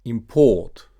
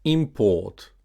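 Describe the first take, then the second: First: ImPORT, with a loud second syllable; stress on second syllable. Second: IMport, stressed on the first syllable. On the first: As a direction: say import as a verb, im-PORT. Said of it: "stressed on the second syllable". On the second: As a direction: say import as a noun, IM-port. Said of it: "stressed on the first syllable". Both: Shown as a demonstration.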